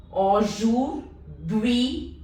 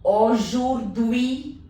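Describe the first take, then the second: First: "aujourd'hui" extra slow, each syllable held. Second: "aujourd'hui" drawn out slowly, ui clear. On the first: Teacher repeating "aujourd'hui" extra slow for the class. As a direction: drag "aujourd'hui" out even slower. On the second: Teacher drilling students slowly on "aujourd'hui". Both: Shown as a demonstration. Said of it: "U I is pronounced as ui".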